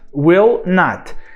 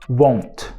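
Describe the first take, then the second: First: It is said as two full words. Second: It is contracted with a changed vowel. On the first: "só acrescentando o not" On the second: "Não"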